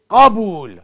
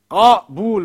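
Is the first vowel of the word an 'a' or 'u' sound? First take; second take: a; a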